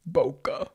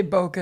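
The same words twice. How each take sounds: First: "Boca" dropped low into a mock rasp; put-on gravelly voice. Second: Said in the usual way. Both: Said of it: "can't say Boca and not say it".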